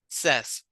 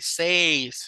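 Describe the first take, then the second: First: The vowel is a short 'e' sound. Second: The vowel is a long 'ay' sound. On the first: The speaker calls it right. "sino says" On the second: The speaker calls it wrong. "Ya no es A, says"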